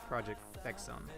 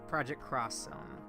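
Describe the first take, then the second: First: The X is said as the letter ex. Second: The X is said as the word cross. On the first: This is the casual, cool way to say it. "If you want to be the cool, cool guy pronunciation" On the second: This is the official way to say it. "If you want to be the proper pronunciation"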